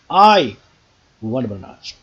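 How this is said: The stress falls on the word I. This person, not someone else. "Nobody else. Okay, I, not you, want bananas"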